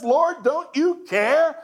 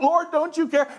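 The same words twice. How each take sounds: First: Slow, high accusing question; accusing Martha. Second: Accusing Martha. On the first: Martha storming in on Jesus, accusing. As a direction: lean on you like an accusation. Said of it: "she interrupts the teaching and says". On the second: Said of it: "That's a direct quote". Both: Acted.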